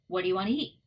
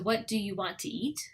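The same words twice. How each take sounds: First: Want to is reduced to 'wanna'. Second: Want to is said as two full words.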